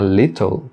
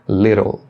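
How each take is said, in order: First: The middle consonants are clear T sounds. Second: The middle consonants are a soft flap. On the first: "falar little também está correto" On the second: "com o som desse R fraco"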